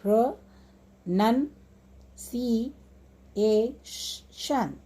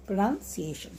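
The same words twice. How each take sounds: First: "pronunciation" very slow, long gaps after each syllable; "pronunciation" chopped into five drawn-out beats. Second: Said in the usual way. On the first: Shown as a demonstration. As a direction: stop fully between pro, nun, ci, a and tion. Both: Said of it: "after each syllable you can put a slash mark".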